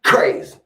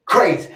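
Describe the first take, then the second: First: Whispered crazy. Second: Said in the usual way. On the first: Real, not acted.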